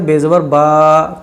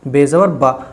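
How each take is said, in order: First: The vowel is stretched and drawn out. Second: The vowel is said quickly and short. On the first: The speaker calls it wrong. "अब कोई अगर इसको ऐसे पढ़े बेजबर बा तो ये गलत" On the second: The speaker calls it right. "हमेशा जल्दी पड़ जाएंगे, खींच कर नहीं"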